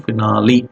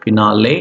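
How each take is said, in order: First: "finale" as fi-NAH-lee; pronunciation ending in LEE. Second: "finale" as fi-NAH-lay; pronunciation ending in LAY. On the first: Teacher gives another pronunciation, ending in LEE. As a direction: end "finale" on a clear LEE. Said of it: "and another one". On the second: Teacher gives first of two pronunciations, ending in LAY. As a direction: end "finale" on a clear LAY. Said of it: "One be-, ends with". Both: Shown as a demonstration.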